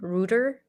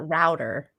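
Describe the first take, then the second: First: It is said the British way, like 'rooter'. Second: It is said the American way, like 'rowter'.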